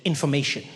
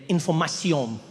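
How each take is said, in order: First: Said in the usual way. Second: Information said the French way, ending in -syon; French pronunciation. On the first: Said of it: "underneath in English said". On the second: Shown as a demonstration. Reading the French vest label, Information pronounced "an-for-ma-syon". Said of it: "And in French, it read".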